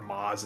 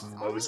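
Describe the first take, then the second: First: The name is said with an 'ah' vowel. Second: The name is said with an 'oh' vowel. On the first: This is how most people first said it. The speaker calls it wrong. "Everyone looking at Maz" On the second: This is the official way to say it. The speaker calls it right. "and then realizing, "Oh, it's Mose.""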